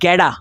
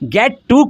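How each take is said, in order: First: The t becomes a quick flap sound. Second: The t sounds are clear and separate.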